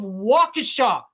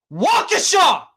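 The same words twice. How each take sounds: First: Said in the usual way. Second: Waukesha! blasted out in disbelief; outraged shout. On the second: Real, not acted. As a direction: yell Waukesha! high and loud. Outraged rant, shouts the town name.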